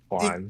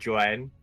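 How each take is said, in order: First: The name starts with a breathy H sound. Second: The name starts with a hard J sound. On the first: The speaker calls it right. "It's actually Juan, it sounds like a H" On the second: The speaker calls it wrong. "you'll be like Joanne"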